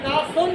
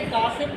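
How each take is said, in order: First: The second vowel sounds like 'u'. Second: The second vowel sounds like 'i'. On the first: The speaker calls it wrong. "आपने मेरा नाम गलत लिया" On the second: The speaker calls it right. "आपने कासिम कहना था"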